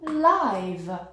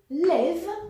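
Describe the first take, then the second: First: The vowel is the long eye sound. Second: The vowel is a short i sound. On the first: "le son I comme dans like" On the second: "avec un i court"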